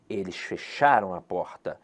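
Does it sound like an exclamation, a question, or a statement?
exclamation. It is said as an exclamation.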